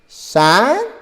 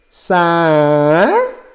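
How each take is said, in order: First: The word is said smoothly and quickly. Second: The word is dragged out slowly. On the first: "smooth it out, make it more smoother and quicker" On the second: "If you slow it down, drag it along"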